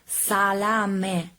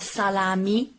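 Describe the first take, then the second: First: The word ends with an 'eh' vowel. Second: The word ends with an 'ee' vowel. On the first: The speaker calls it right. "the correct pronunciation of this word is salame" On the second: The speaker calls it wrong. "not salami"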